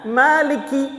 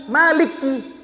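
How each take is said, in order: The two takes are said the same way.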